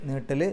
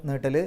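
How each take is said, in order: No difference in how they are said.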